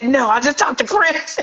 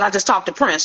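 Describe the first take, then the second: First: High, laughing insistence; retold excited protest breaking into laughter; freaking out. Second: Said in the usual way. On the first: Daughter insists to disbelieving mother, freaking out. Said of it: "now we both freaking out".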